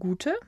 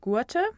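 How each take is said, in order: First: The vowel is a single steady long u. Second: The vowel glides as a two-part diphthong. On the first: This is the later, modern form of the language. "zu einem einzigen u" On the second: This is the older form of the language. "die beiden Laute ur"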